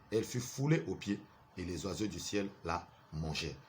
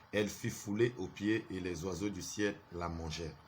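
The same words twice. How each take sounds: Both takes have the same delivery.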